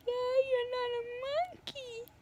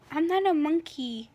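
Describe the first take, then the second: First: High, soft sing-song put-on voice; mock them in a thin high voice; mocking echo. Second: Said in the usual way. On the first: [name] mocking Helena's protest, high sing-song echo.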